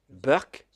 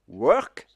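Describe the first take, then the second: First: It begins with a B sound, Indian English style. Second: It begins with a W sound.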